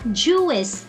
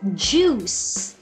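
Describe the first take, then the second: First: The word is said with an extra vowel syllable. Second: The word is said as a single syllable. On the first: The speaker calls it wrong. "It's not juice" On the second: The speaker calls it right. "It's juice"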